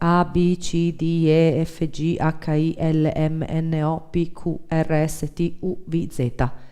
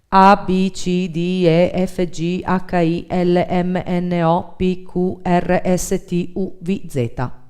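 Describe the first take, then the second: First: The voice is lighter and quieter. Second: The voice is fuller and louder.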